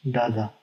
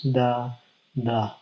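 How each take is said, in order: First: "dada" as two unstressed beats run together; both syllables of "dada" light, no gap; pyrrhic stress pattern. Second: "the, the" as two separate stressed beats; spondee stress pattern. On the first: Teacher demonstrates a pyrrhic, "dada" left unstressed. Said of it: "two unstressed syllables". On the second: Teacher demonstrates a spondee, both "the, the" stressed. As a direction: equal weight on both "the, the", split by a pause. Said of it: "contains two stressed syllables". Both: Shown as a demonstration.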